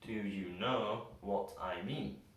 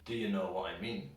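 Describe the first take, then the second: First: Each word is said carefully and fully. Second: Most words are reduced with weak vowels. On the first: "we can only really hear the schwa sound in the word no" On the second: "in a normal conversational way, almost every single word gets a schwa sound"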